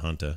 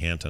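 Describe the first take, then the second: First: The first vowel sounds like the u in hut. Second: The first vowel sounds like the a in hat. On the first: The speaker calls it wrong. "not hunta" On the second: The speaker calls it right. "it's H A N T A, so it must be hanta"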